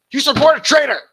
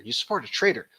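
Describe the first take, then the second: First: Hammed-up shout, much higher and louder; over-the-top mocking outburst; mock yell. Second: Said in the usual way. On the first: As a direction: bellow it like a hammed-up accusation. Mock shouting the clip's accusation.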